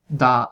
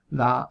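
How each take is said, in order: First: The d is a full dental stop. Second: The d is a soft interdental approximant. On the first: "contrastar también" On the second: "con la expirante, que en este caso, más que propiamente dental, es interdental"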